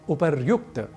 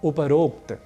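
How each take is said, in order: First: The middle of the word sounds like 'ryu'. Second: The middle of the word sounds like 'ro'. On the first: The speaker calls it right. "हमें कहना चाहिए उपर्युक्त" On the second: The speaker calls it wrong. "जो कि गलत है"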